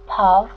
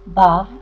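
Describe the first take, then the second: First: It is pronounced the Western Armenian way. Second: It is pronounced the Eastern Armenian way.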